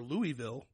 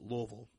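First: It is pronounced in an outsider's way. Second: It is pronounced the way locals say it. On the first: The speaker is not from the area. The speaker calls it wrong. "which is wrong" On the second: The speaker is from the area. The speaker calls it right. "it's Louisville"

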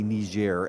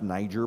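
First: It is said in the media's non-American pronunciation. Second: It is said in the American pronunciation. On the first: This is the pronunciation pushed by the media. "as some people on the media are intending that everyone should say" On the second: This is how Americans say it. "It's pronounced Niger by Americans"

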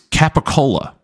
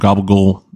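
First: The word is said without a put-on accent. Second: The word is said with a put-on accent.

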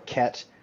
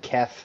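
First: The word ends with a t sound. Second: The word ends with a th sound. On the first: "or Ket, which somewhat resembles the name of a real drug" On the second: "if I said Kef with my teeth"

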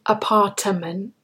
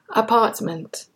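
First: An extra syllable is added inside the word. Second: No extra syllable is added inside the word. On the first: The speaker calls it wrong. "We don't say apartment. When you do that, you're actually adding an extra syllable" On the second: The speaker calls it right. "We say apartment"

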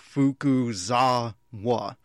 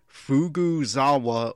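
First: The name is said carefully, with emphatic clear syllables. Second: The name is said loosely, with the middle slurred. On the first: The speaker calls it right. "I'm trying to be more emphatic right there" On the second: The speaker calls it wrong. "it sounded like I was saying Fukuzawa or Fukugawa"

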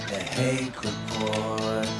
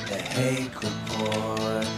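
The two takes are said the same way.

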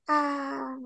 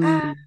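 First: It is said quietly. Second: It is said loudly.

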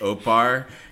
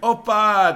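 First: The word ends with an added r sound. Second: The word ends on a plain vowel. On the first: The speaker calls it wrong. "the funniest one to me is opar" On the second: The speaker calls it right. "instead of like opa"

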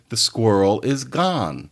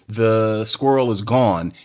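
First: The vowel in 'gone' is an open 'ah'. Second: The vowel in 'gone' is a rounded 'aw'. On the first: "You say the squirrel is gone" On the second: "you don't say that the squirrel is gone"

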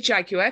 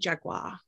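First: The word has a British pronunciation. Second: The word has a non-British pronunciation. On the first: This is how it is said where the speaker lives. "I say Jaguar because I'm in Britain" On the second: This is how the guest says it. "I am saying Jaguar because that's how you say it"

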